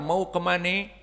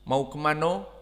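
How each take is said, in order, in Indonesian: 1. Diucapkan dengan logat Betawi Jakarta. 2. Diucapkan dengan logat Minang. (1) "dialek bahasa Indonesia ini dipakai oleh orang Betawi" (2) "orang-orang Sumatera misalnya Barat"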